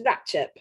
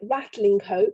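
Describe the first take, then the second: First: The name is squeezed into two short syllables. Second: Every syllable of both words is said fully. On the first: This is how the name is said locally. "is Ratchep" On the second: This is how the name is written. "as it's spelt"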